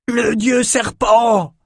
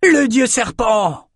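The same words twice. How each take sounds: First: High, slow bawled shout; bawling. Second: High, slow answering shout; bawling echo. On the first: Norokai warriors seeing their god, bawling shout. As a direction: roar it out in awe and terror. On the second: Norokai crew echoing the cry, high slow shout. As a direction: another voice takes up the cry. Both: A narrator's reading. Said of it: "braillèrent les Norokai".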